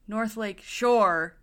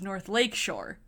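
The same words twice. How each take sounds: First: The stress falls on the word Shore. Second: The stress falls on the word Lake. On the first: The speaker calls it wrong. "he puts the emphasis on shore" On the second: The speaker calls it right. "You always put the emphasis on lake"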